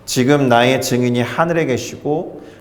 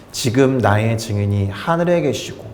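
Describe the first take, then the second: First: It is read in a flat, calm, unemotional way. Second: It is read in a dreamy, romantic, sentimental way. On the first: "제가 너무 또 담담히 읽었죠" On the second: "이렇게 낭만적으로 읽는 본문이 아닙니다"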